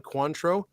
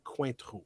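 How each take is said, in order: First: Cointreau said as an American would, KWAN-troh; American pronunciation. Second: Cointreau said softly the French way; French pronunciation. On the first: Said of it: "I do pronounce like an American". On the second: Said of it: "It's technically Cointreau". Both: Shown as a demonstration.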